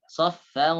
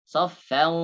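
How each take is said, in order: No difference in how they are said.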